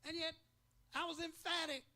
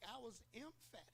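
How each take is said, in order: First: Emphatic pitched high and loud, driving the word home; emphatic declaration. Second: Emphatic dropped soft and settled; emphatic said softly as a firm echo; quiet emphatic. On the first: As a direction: proclaim it with full conviction. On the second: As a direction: let emphatic fall quietly, sure of itself. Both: Real, not acted. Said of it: "I was not just ecstatic, I was emphatic".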